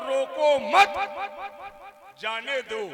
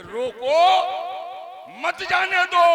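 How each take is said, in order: First: "रोको मत" as one rising unit, long break, then "जाने दो"; pause after मत. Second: "रोको" rising, break, then high loud "मत जाने दो"; pause after रोको. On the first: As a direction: join "मत" to "रोको", then let "जाने दो" fall. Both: Shown as a demonstration. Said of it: "बात एक है, अर्थ दो है।".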